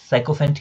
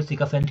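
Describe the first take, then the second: First: साइकोफेंट with a "sai" opening; variant pronunciation. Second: सिकोफेंट with a short "si" opening; variant pronunciation. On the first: Teacher showing students another variant, साइकोफेंट pronounced with "sai". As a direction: say साइकोफेंट starting like "psycho". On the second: Teacher showing students one variant, सिकोफेंट pronounced with "si". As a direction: say सिकोफेंट starting "sik-o", not "sike-o". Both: Shown as a demonstration. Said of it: "इसके pronunciation में अलग-अलग तरह का होता है".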